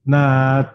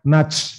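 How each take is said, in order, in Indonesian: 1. T di akhir dilepaskan dengan embusan napas. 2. T di akhir dilepaskan dengan bunyi desis seperti S. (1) "keluar nafasnya" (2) "bukan nats, bukan gitu"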